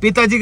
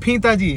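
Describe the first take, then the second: First: Said in the usual way. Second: फीताजी with an airy F-like first sound for P; punning mispronunciation. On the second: Shown as a demonstration. Joking with family on father's title, फीताजी drawn out with F. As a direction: stretch out फीताजी, opening on F instead of P. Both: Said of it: "पिताजी का मतलब फीताजी".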